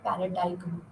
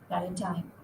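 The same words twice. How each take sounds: First: A g sound is pronounced near the end. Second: No g sound is pronounced near the end. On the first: The speaker calls it wrong. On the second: The speaker calls it right.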